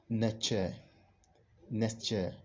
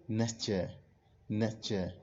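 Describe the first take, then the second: No difference in how they are said.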